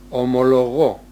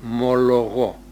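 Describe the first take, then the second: First: The word starts with an o vowel sound. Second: The word starts with an m sound. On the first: This is the ancient form. "λέγανε εκείνοι" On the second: This is the modern form. "λέμε εμείς. Το πρώτο αποβλήθηκε"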